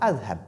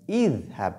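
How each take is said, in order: First: The word begins with an 'a' vowel. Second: The word begins with an 'i' vowel. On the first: The speaker calls it wrong. "et non Adhab" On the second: The speaker calls it right. "on doit dire Idhab"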